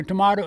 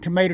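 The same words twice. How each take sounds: First: "tomato" said tuh-MAH-tuh. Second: "tomato" said tuh-MAY-tuh. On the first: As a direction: give "tomato" a broad ah. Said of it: "he didn't, tomato". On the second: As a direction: give "tomato" a long A. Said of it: "tomato, he calls it oil". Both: Shown as a demonstration.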